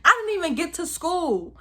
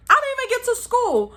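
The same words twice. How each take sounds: First: Said in the usual way. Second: The same line again, pitched up high in despair; high, anguished repeat; exasperated high wail. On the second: Acted. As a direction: whine it out like a kid who lost everything.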